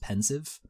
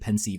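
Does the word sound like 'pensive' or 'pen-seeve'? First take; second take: pensive; pen-seeve. First: It sounds like the ordinary word pensive. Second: The second syllable sounds like 'seeve'. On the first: The speaker calls it right. "I think it's actually pronounced pensive" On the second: The speaker calls it wrong. "but I've just pronounced it pensieve"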